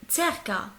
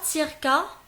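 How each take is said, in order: First: The first vowel falls between i and e. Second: The first vowel sounds like a clear i. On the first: The speaker calls it right. "c'est entre les deux" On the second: The speaker calls it wrong. "ce n'est pas circa"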